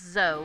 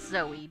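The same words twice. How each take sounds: First: The name is said as one syllable. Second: The name is said as two syllables. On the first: The speaker calls it right. "it is Zoe" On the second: The speaker calls it wrong. "not Zoe, because there's no umlaut"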